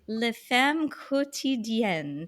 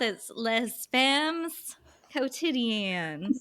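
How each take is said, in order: First: It is said with an attempt at French pronunciation. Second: It is said with an exaggerated Southern US accent.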